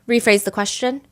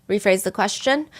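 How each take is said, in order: The two takes are said the same way.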